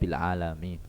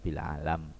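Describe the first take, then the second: First: The word ends with a final i vowel. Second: The word ends without a final vowel. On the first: It is read this way in ordinary reading. "Tapi kalau dibaca ya bil alami" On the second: It is read this way to fit the verse. "Ini dibaca sukun karena dia berada di nadom"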